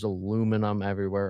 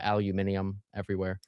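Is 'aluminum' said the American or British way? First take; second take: American; British. First: Aluminum is said the American way, four syllables. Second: Aluminium is said the British way, five syllables.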